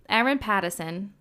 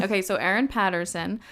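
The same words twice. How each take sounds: First: Erin Patterson in a failed Australian accent that slips toward Boston; attempted Australian accent. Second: Said in the usual way. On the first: Shown as a demonstration. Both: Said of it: "No, that just sounds Boston".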